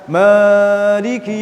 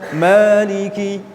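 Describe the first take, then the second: First: The long vowel is stretched well beyond two beats. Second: The long vowel is held for exactly two beats. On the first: The speaker calls it wrong. "wah itu sudah lebih dari dua harokat" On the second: The speaker calls it right. "Yang benar Maliki"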